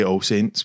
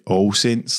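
First: Said in the usual way. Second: "All Saints" drawn out slowly in own accent; slower, local "All Saints"; own pronunciation, exaggerated. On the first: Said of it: "people say All Saints". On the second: Shown as a demonstration. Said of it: "there's slight exaggeration".

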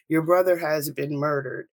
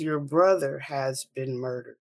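First: Said in the usual way. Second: Measured, slower retelling of bad news; slowed repeat. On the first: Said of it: "My mother is wailing in the phone". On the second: Mother repeating news to her daughter, slowed down. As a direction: repeat it slowly and deliberately. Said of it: "Slow down and say that one more time".

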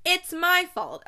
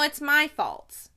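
First: "my" in "It's my fault" punched higher and louder; stress on my. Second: "my" in "it's my fault" drawn out and stressed, slowly. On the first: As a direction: hit "my" hard and high. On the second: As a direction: lean slowly on "my". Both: Shown as a demonstration. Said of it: "She actually laughed at this".

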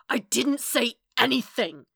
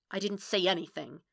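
First: Loud, higher, furious denial; snarled. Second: Contained anger, at normal volume; spat out. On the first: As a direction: snarl it out at full anger. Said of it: "Matt snarled". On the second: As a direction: spit it out tightly, without raising the voice. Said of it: "he spit out". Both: A narrator's reading.

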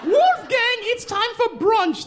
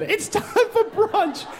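First: Very high, slow call to brunch; posh mother calling. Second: Posh mother repeat. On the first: Mother summoning Wolfgang to brunch, very high posh call. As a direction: sing it out like a society mom. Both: Retold or imitated. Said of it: "That's what the woman said".

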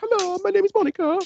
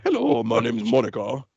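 First: Mocking the too-high wife impression in loud falsetto; exaggerated high pitch. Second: Put-on wife voice, far lower than falsetto; lower-pitched wife. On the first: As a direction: squeal it very high, like a caricatured wife. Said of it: "make your wife sound higher pitched than she is". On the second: Shown as a demonstration. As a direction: do the wife more butch, down near your own pitch. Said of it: "lower pitch in her voice".

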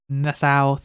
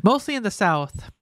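First: Badly attempted Southern US accent; failed Southern accent. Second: Said in the usual way. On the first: Shown as a demonstration. Host tries the article's words, failed Southern accent. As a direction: have a poor try at a Southern accent. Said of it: "I was literally trying, but I failed horribly". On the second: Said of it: "I was literally trying, but I failed".

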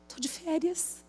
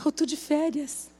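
First: Sleepy mumble. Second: Sleepy, with the weight on "Eu"; stress on eu. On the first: Woken by a call, mumbling to herself sleepily. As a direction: mumble it half asleep. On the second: Insisting to herself that "Eu" is the one on holiday. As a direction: lean on "Eu" in "Eu tô de férias". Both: Retold or imitated. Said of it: "Eu falei".

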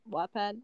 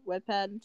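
First: Said in the usual way. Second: Wattpad said like "Wedpad"; mispronounced Wattpad. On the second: Real, not acted. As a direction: stumble on Wattpad, first vowel as in "wed". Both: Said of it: "sorry, I can't say that right".

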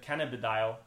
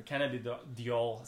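First: "cannabidiol" in the first of two variants; first pronunciation variant. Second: "cannabidiol" in the other, less easy variant; alternative pronunciation. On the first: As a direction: say "cannabidiol" the way settled on as easiest. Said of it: "we couldn't pronounce if it". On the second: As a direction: say "cannabidiol" haltingly, as the alternative reading. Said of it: "Some people have different pronunciation". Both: Shown as a demonstration.

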